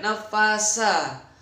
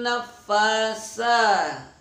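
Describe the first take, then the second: First: The consonant is a plain s sound. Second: The consonant is a th sound, tongue out. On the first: The speaker calls it wrong. "Jangan sampai nafasa" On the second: The speaker calls it right. "Tapi sa. Lidahnya keluar sedikit"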